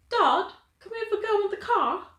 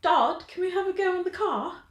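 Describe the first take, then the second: First: Put-on high, bright British girl's plea to her dad; British accent. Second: Put-on high British girl asking her dad for a go; British accent. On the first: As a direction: ask Dad like a young English girl. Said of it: "that's my go-to for, like, a British accent". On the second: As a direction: imitate the English girl's request, pitched up. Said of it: "if I'm thinking British accent".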